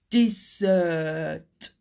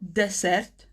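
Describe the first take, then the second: First: The middle consonant is a buzzing Z sound. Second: The middle consonant is a hissing S sound. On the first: The speaker calls it right. "The double S almost becomes like a Z sound" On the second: The speaker calls it wrong. "It's not dessert, no"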